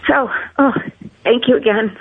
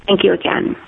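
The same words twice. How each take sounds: First: Breaking into a sob, then thanks; choked up. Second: Said in the usual way. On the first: Real, not acted. Grandmother thanking the doctors, choked up with tears. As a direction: voice catching on tears of gratitude. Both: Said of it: "I'm sorry for getting emotional".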